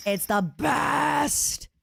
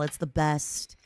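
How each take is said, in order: First: Higher and very slow, stretching each word; slow gushing. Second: Said in the usual way. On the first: Shown as a demonstration. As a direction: savour "best" like a dreamy sigh. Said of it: "repeated, stretched". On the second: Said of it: "said again drawn out".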